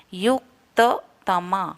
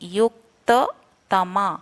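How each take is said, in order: No difference in how they are said.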